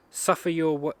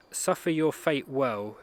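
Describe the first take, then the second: First: Said in the usual way. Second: "suffer your fate well" said slowly, each word weighed; slow and deliberate. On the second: Shown as a demonstration. Quoting his hero's line, slow and measured. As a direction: lay out the words one by one. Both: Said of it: "repeats the line slowly".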